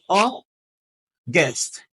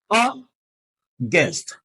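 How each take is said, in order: The two takes are said the same way.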